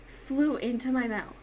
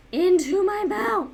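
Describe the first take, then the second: First: Said in the usual way. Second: "mouth" stretched, higher and louder; emphatic repeat. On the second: Real, not acted. Repeating to viewers where the bee went, loud on "mouth". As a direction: lean hard on "mouth" in disbelief.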